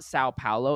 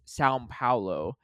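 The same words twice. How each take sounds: First: São Paulo with no M sound; São Paulo, São ending on an open vowel; anglicized pronunciation. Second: São Paulo as "Sowm Paulo"; slow São with a little M ending; Portuguese-style pronunciation. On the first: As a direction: say São as plain "sow". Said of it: "like a little M at the end". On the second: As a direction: close São on a light M before Paulo. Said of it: "almost like a little M at the end of the São". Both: Shown as a demonstration.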